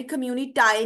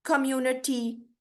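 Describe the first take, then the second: First: कम्युनिटाई ending in "eye", the wrong way; mock the wrong ending कम्युनिटाई. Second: कम्युनिटी ending in a long "ee", not "eye". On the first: Teacher showing the wrong way: कम्युनिटाई ending eye. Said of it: "कम्युनिटाई नहीं आएगी". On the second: Teacher correcting ending to ee: कम्युनिटी. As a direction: end कम्युनिटी on ee. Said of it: "आई नहीं आएगा". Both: Shown as a demonstration.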